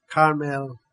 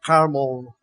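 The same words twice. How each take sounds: First: "Carmel" with a clear e, car-MEL; alternative pronunciation. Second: "Carmel" with a weak last vowel, CAR-mul; alternative pronunciation. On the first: Preacher trying out the name, "Carmel" said as car-MEL. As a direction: say "Carmel" with a full "mel" ending. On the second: Preacher trying out the name, "Carmel" said as CAR-məl. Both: Shown as a demonstration.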